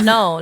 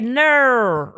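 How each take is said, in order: First: Said with a plain American vowel, sounding like no. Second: Said with an Australian vowel, sounding like ner. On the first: "instead of "no,"" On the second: "in Australia, they say, "Ner,""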